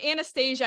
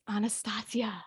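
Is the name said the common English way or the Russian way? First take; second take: English; Russian. First: It is said the common English way. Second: It is said the Russian way. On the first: The speaker calls it wrong. "I know that's how everybody pronounces it" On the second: The speaker calls it right. "no, it's Anastasia. The, the Russian"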